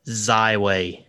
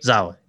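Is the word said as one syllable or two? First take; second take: two; one. First: The word is said with two separate syllables. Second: The word is run together into one syllable.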